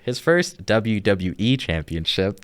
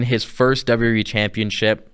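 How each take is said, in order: First: The phrase is said slowly and deliberately. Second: The phrase is said at a normal, quicker pace.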